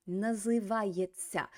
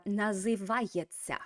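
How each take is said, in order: First: Называется said slowly, na-zy-VA-yet-sya; slow model word. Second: Said in the usual way. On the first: Shown as a demonstration. Teacher slowly models the new word. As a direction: stretch out Называется. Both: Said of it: "They are называется".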